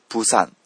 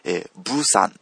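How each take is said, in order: First: The word begins with a voiceless p sound. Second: The word begins with a voiced b sound. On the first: "プーサンと言っても" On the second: "ブーサンと言っても"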